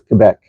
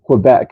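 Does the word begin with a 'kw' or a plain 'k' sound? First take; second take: plain k; kw. First: It begins with a plain 'k' sound. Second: It begins with a 'kw' sound. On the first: "without the you know the the W-ish sound" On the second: "I always heard it Quebec growing up"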